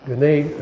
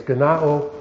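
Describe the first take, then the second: First: "gene-" said as guh-NAY; mistaken pronunciation. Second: "genao" said as guh-NAH-oh; corrected pronunciation. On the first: Teacher fumbling the Greek word, mispronounced. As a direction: end "gene-" on an AY sound. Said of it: "uh, not gene". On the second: Teacher correcting himself on the Greek word, corrected pronunciation. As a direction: open AH then OH in "genao". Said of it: "it's genao". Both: Shown as a demonstration.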